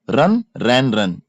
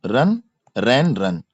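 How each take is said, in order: Both takes have the same delivery.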